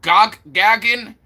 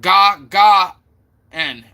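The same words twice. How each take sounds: First: "Gagin" as GAG-in, short a; own first pronunciation. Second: "Ga, Ga, N" as separate open-ah syllables; corrected pronunciation. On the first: Streamer recalling their attempt, "Gagin" as GAG-in. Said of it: "'Cause I said". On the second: Streamer repeating chat's correction, "Ga, Ga, N" split up. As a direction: punch "Ga, Ga", then drop on "N". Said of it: "and you said". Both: Shown as a demonstration.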